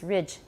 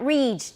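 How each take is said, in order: First: The vowel is a short i sound. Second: The vowel is long, not a short i. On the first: The speaker calls it right. "短的 I" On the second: The speaker calls it wrong. "Not ridge. Don't say ridge"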